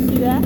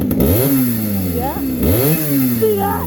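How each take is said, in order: First: Said in the usual way. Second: Much lower, gruff put-on voice; deep growl. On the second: Real, not acted. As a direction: drop the voice way down.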